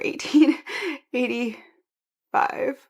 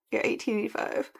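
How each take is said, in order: First: Careful, slow "eighteen eighty-five" with a rise; corrected emphasis. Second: Said in the usual way. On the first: Shown as a demonstration. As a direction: correct yourself firmly, stretching "eighty-five". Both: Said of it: "or sorry".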